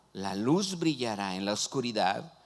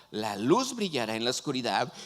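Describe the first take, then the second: No difference in how they are said.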